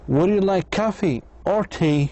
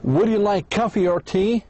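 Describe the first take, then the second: First: The voice rises on coffee, falls on tea. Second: The voice rises on coffee and on tea.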